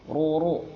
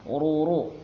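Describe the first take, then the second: Both takes have the same delivery.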